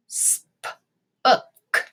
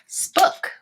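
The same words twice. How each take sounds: First: "Spook" in separate sounds, short vowel as in book; sounded out. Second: Said in the usual way. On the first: Shown as a demonstration. Teacher testing a non-word, "Spook" in pieces with short oo. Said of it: "tap this word out and say it". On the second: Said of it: "and say it".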